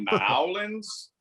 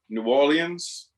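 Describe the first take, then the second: First: It is squashed into two syllables, like Nawlins. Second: Orleans is said in a French-like way. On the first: "if you say Nowlands, we want to smack you immediately" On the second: "which is closest to the original French"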